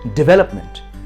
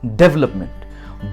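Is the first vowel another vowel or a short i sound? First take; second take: short i; another vowel. First: The first syllable has a short i vowel. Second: The first syllable has a different, non-i vowel. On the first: The speaker calls it right. "डी पे छोटी ई की मात्रा लगा दीजिए" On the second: The speaker calls it wrong. "ना कि डेवलपमेंट"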